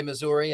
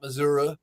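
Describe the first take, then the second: First: Said in the usual way. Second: "Missouri" ending in an unstressed "uh"; local Missouri pronunciation. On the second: Shown as a demonstration. Host showing how locals differ, "Missouri" with "uh" ending. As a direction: say "Missouri" as "Mizzuruh", not with a final "ee". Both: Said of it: "I say Missouri and not Missouri".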